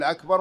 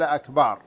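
First: The vowel in the second syllable is short. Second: The vowel in the second syllable is drawn out long. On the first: It means greater. The speaker calls it right. "فهو لم يقل أكبر" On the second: It means drums. The speaker calls it wrong. "وإنما قال أكبار، والأكبار هو الطبل"

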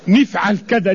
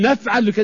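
First: The verb's first vowel is an i sound. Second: The verb's first vowel is an a sound. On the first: This is how one tribe's dialect says it. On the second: This is how another tribe's dialect says it.

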